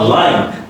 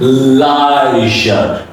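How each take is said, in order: First: Said in the usual way. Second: Lion drawn out very slowly, I gliding into O; diphthong in lion. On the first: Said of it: "This is not lion". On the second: Shown as a demonstration. Teacher showing students the slow two-vowel lion. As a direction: stretch lion, linger on the diphthong. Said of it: "This is lion, because there is I and O".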